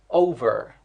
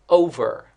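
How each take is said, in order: The two takes are said the same way.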